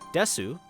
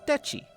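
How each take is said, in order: First: The word is said with an s sound. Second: The word is said with a ch sound. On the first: "the S sounds" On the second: "replaced with the ch sound"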